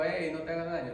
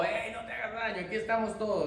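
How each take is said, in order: First: Said in the usual way. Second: Paul's cry shouted out, pitched high; shouting. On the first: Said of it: "no es que dijo". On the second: Retold or imitated. Paul cries out to the jailer to stop him, shouting. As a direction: call out urgently across the dark prison. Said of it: "no, gritó".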